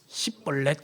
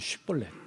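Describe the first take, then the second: First: The word begins with an 's' sound. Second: The word begins with an 'sh' sound. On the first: The speaker is from Ephraim. The speaker calls it wrong. "에브라임 사람이 어떻게 해요? ... 그러니까 그게 안 되는 거예요" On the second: The speaker is not from Ephraim. The speaker calls it right. "쉿볼렛이라고 해보라는 거예요"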